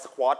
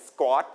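First: "squat" said sa-khwot, puff on the k; aspirated k. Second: "squat" said s-gwot, k like Thai ก; unaspirated k. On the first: Teacher showing how not to read "squat", k aspirated. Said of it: "ก็จะไม่อ่านว่า squat". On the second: Teacher giving correct "squat", k unaspirated. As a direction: say "squat" with no puff after the k. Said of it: "เป็นเสียงเกอ". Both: Shown as a demonstration.

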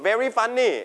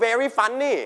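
Both takes have the same delivery.

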